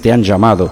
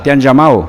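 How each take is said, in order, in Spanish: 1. Se pronuncian todos los sonidos de la última palabra. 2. Se omite un sonido de la última palabra. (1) "nosotros decimos te han llamado" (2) "así, sin la letra"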